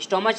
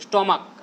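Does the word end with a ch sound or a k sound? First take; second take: ch sound; k sound. First: The word ends with a ch sound. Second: The word ends with a k sound. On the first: The speaker calls it wrong. "स्टोमच नहीं" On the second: The speaker calls it right. "C H का क होता है"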